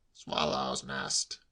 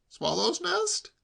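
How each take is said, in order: First: Low, very slow confirmation; stolid uncle. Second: High, drawn-out rising question; incredulous nephew. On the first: Uncle insisting on his excuse, stolid. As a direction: repeat it low and drawn out. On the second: Nephew doubting uncle's excuse, incredulous. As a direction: echo it high in disbelief. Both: A narrator's reading.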